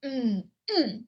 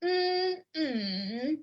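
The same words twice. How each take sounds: First: "Mm, mm" dipping, then falling sharply; third then fourth tone. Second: "mm, mm" high and level, then dipping down-up; first then third tone. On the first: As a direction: hum the first "Mm" down-up, drop the second. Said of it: "That's three and four". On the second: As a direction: hold the first "mm" high, dip the second. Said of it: "first and third". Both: Shown as a demonstration.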